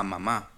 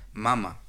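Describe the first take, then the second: First: "mamá" with the beat on the final "má"; stress on last syllable. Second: "mama" with the beat on its first "ma"; stress on first syllable. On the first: Showing Spanish accent contrast, "mamá" stressed on the last syllable. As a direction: lean on the ending of "mamá". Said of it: "el acento prosódico". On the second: Showing Spanish accent contrast, "mama" stressed on the first syllable. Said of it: "utilizamos el acento". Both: Shown as a demonstration.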